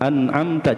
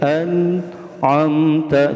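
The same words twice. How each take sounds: First: The word is said quickly and hurriedly. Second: The word is said slowly and carefully. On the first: The speaker calls it wrong. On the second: The speaker calls it right.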